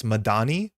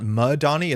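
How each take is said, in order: First: Madani stressed on the middle syllable; ma-DA-ni, Madani with a long ah; corrected accent. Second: Madani with weight on the first syllable; MA-dani, front-stressed Madani; wrong accent. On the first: Streamer correcting viewers, middle-stressed Madani. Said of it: "accent on this". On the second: Streamer showing the mistake, front-stressed Madani. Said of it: "It's not Madani". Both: Shown as a demonstration.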